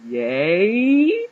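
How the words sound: It sounds confused and questioning.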